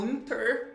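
The R sound is clearly and strongly pronounced. "com esse R forte"

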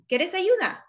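It is said with a rising question tune.

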